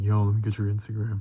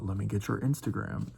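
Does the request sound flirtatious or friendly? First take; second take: flirtatious; friendly. First: It sounds flirtatious, like a come-on. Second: It sounds friendly and casual, not flirtatious.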